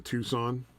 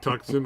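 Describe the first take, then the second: First: "Tucson" said TOO-sahn; correct car-name pronunciation. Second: "Tucson" said TUCK-sun; mistaken pronunciation. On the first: Repeating the discovery for a friend, "Tucson" as TOO-sahn. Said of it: "I just realized the other day". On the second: Confessing the old name for mom's SUV, "Tucson" as TUCK-sun. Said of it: "I've been calling it". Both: Shown as a demonstration.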